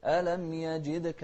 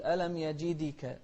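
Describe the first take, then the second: First: يجدك with a short echoing bounce on the د, no full vowel; qalqala on dal. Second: يجدك with a full "i" wrongly added after the د; overdone qalqala. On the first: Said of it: "فيها قلقلة". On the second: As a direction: say يجدك as "yajidika", as a mistake. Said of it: "لكن لا تقول". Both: Shown as a demonstration.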